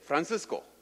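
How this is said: It is said with a Colombian Spanish accent. The speaker is from Colombia. "if you're from Colombia, you would say"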